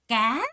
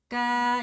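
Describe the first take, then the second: First: The pitch rises throughout. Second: The pitch stays level throughout. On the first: A fish. "두 번째 까 하고 올라갔죠" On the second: A dipper or scoop. "이 정도 음에서 쭉 가는 거예요"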